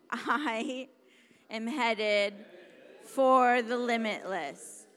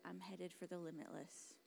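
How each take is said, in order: First: Loud, emphatic rallying declaration; with an exclamation point. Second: Soft, low, tentative delivery; unconvinced. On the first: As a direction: belt it out, stretched and punchy. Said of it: "there was an exclamation point". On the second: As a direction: say it quietly, without conviction. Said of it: "like it wasn't a question mark". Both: Shown as a demonstration.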